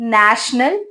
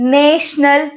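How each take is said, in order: First: The first vowel is a short 'a' sound. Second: The first vowel is a long 'ay' sound. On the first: The speaker calls it right. "ஷார்ட்டியே sound ஏன்னு கொடுத்து" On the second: The speaker calls it wrong. "லாங்கே sound ஏன்னு கொடுத்து"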